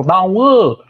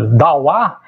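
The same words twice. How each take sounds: First: "Dauã" with a nasal last vowel, higher; vocative form. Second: "dauá" ending in an open oral a; plain word form. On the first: Linguist calls someone over, higher nasal-ending "Dauã". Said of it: "se eu estiver chamando ele". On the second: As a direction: say "dauá" without nasalising the last vowel. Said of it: "Se eu falar". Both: Shown as a demonstration.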